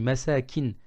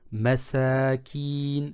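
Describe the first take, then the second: First: The vowel in the last syllable is short. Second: The vowel in the last syllable is long. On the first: It means dwellings. "sans prolonger" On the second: It means the poor. "je prononce kin"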